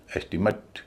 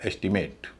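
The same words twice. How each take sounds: First: estimate as ES-ti-mut; noun pronunciation. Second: estimate as ES-ti-MATE; verb pronunciation. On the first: Teacher giving the noun form, estimate as ES-ti-mut. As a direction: stress only the start of estimate, weak "mut". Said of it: "पहले पर stress". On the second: Teacher giving the verb form, estimate with full "mate". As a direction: give estimate a full "ate" ending. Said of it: "verb होगा तो उच्चारण होगा एट". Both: Shown as a demonstration.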